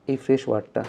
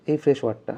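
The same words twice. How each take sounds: The two takes are said the same way.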